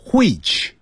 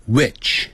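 First: "which" with h before the w, hwich; British-style "which". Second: "which" with plain w and short i; American "which". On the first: Teacher shows what not to say, "which" as hwich. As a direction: puff an h into the start of "which". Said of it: "不要念成which". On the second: Teacher models American, Canadian English for students, "which" as witch. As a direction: start "which" on w, no h puff. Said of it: "加拿大英语念成which". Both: Shown as a demonstration.

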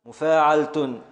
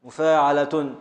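The two takes are said the same way.

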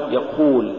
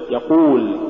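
First: يقول with ق loosened, letting breath through; weak qaf. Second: Said in the usual way. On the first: Shown as a demonstration. Teacher showing what not to say, loose qaf in يقول. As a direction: slacken the ق in يقول towards "kh". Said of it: "ولا تقل". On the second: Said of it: "قل".

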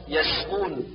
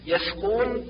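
First: يسقون with crisp s; true seen. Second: يسقون with th for s; seen as thaa. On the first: Teacher corrects, يسقون with clear s. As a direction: keep a clean whistling س in يسقون. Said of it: "والصواب". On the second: Teacher shows the error, يسقون as yathqun. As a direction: lisp the س of يسقون into ث. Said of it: "كالنطق بالسين ثاء". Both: Shown as a demonstration.

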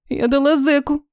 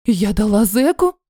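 First: Understated dismay, stated as fact; dismayed realization. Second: Slow, rising disbelief; shocked question. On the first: Heroine confessing her mistake to her friend, dismayed. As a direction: let the awful fact sink in. Repeats the shocking discovery as fact. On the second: Heroine learning who the man was, shocked question. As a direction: ask it as the realization lands. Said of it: "Поперхнулась тортом". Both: A narrator's reading.

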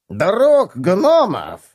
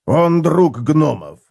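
First: High slow sneer on гномов; mock the idea with a snort; scoffing. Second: Slow, weight on друг; firm statement. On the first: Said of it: "фыркнул бронелом". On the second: Acted. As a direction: lay down друг as a flat fact. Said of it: "сказал Готрек".

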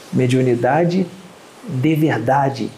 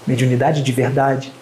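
First: De verdade drawn out slowly, pause after Mediunidade; slow emphatic phrase. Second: Said in the usual way. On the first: Shown as a demonstration. Lecturer to audience, slow stress on de verdade.

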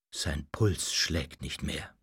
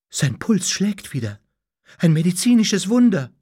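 First: Low, soft, slow and grave; mournful announcement. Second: Astonished, climbing higher and louder; stunned disbelief. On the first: Doctor pronounces the master dead, mournful. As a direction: announce a death in a hushed, sorrowful tone. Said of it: "verkündete er mit Trauermiene". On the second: Doctor finds the dead man's pulse, stunned. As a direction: announce it dumbfounded, building to amazement. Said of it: "erklärte fassungslos". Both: A narrator's reading.

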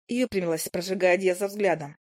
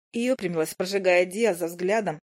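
Both takes have the same delivery.

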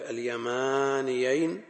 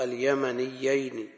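First: "اليمانيين" with a drawn-out "maa" and single ya; long "maa", undoubled ya in "اليمانيين"; long alef, light ya. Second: "اليمنيين" with a heavy doubled ya and no long alef; short "ma", doubled "yy" in "اليمنيين". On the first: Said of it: "فلما أتي بالألف". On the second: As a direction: slowly stress the geminated ya in "اليمنيين". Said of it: "وياء النسب كياء الكرسي مشددة". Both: Shown as a demonstration.

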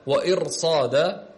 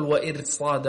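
First: Slow وإرصاد with a thick, broad ra; heavy ra. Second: وإرصاد with the ra thinned and light; wrong light ra. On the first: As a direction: correct it to a drawn-out heavy ra in وإرصاد. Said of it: "هنا أيضًا تفخم". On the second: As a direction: show the mistake, a light ra in وإرصاد. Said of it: "لا تقل". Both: Shown as a demonstration.

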